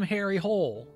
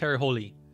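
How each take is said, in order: First: The surname is one syllable, like hole. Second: The surname has two syllables, ending in ee. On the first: This is how the film said the name. The speaker calls it wrong. "called him Harry Hole" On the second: This is the original Norwegian form of the name. The speaker calls it right. "It's supposed to be holy in Norwegian"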